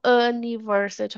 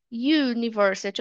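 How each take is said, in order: First: "university" starting on "uh", no Y; wrong U sound. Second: "university" beginning with a Y glide; U as "you". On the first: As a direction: say "university" as "uh-niversity". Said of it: "Eu não falo university". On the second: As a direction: open "university" on "yoo". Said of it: "falando o Y do U". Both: Shown as a demonstration.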